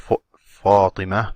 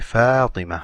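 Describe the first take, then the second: First: The first syllable sounds heavy and deep. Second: The first syllable sounds light and thin. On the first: The speaker calls it wrong. "You don't say" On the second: The speaker calls it right. "You say"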